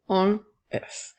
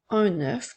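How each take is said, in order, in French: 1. Aucun son n ne relie « un » à « œuf ». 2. Un son n relie « un » à « œuf ». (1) "et non" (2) "nous faisons la liaison du N avec O"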